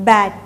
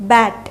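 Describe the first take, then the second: No difference in how they are said.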